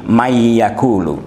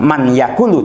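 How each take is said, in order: First: The n merges into the following y sound. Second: The n is pronounced clearly before the y. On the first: The speaker calls it right. "tapi may yakulu" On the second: The speaker calls it wrong. "bukan man yakulu"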